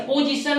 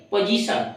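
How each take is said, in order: First: पोजीशन with a round "po", pitched high; पोजीशन with a full O in the first syllable; wrong pronunciation demo. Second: पोजीशन with a short first vowel, "pa-jisan"; पोजीशन said as "puh-jisan"; correct pronunciation demo. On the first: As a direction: say पोजीशन as "poh-jisan", raised. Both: Shown as a demonstration. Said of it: "पोजीशन नहीं".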